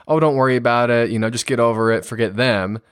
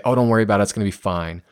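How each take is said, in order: First: Breezy, brushing it aside; a parent shrugging off a teen's upset; dismissive brush-off. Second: Breezy, brushing it aside; mock reassurance that shuts the feeling down; dismissive brush-off. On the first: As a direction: wave the hurt away lightly. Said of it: "instead of saying". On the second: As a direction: wave the feelings away lightly. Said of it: "that bury emotions". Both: Shown as a demonstration.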